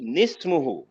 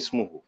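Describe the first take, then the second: First: The word starts with a linked n sound. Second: The word starts directly with a vowel. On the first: It is joined to the word before. "इस नून को उसके साथ मिला लीजिए" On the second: It is read after a stop. "या इस अलग रोक लीजिए, ऐसे मौके पे रुक भी सकते हैं"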